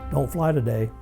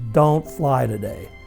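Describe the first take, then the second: First: It is said in a quiet, calm voice. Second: It is said loudly, almost yelled.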